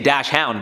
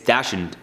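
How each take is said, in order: First: The word ends in a full 'hound' sound. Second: The word ends in a short 'in' sound. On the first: The speaker calls it wrong. "I used to say Dash Hound, but it's not" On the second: The speaker calls it right. "I think it's Dashin is how you say it"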